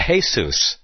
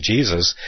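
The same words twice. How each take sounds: First: "Jesus" said as "hay-SOOS"; Spanish pronunciation. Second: Said in the usual way. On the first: Shown as a demonstration. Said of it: "and they'll pronounce it". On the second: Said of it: "what we're traditionally used to calling".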